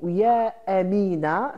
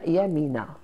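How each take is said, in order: First: The two words are separated by a glottal catch. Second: The two words run together with no catch. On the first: It is a call addressed to someone named Amina. "le A devient très lourd" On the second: It has become a single given name. "ça devient Yamina"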